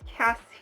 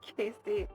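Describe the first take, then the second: First: The first vowel sounds like in 'cat'. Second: The first vowel sounds like in 'case'. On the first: The speaker calls it right. "It's Cassie" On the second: The speaker calls it wrong. "not Casey"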